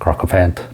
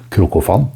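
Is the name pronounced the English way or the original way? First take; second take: English; original. First: The name is said with an English pronunciation. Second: The name is said with a non-English pronunciation.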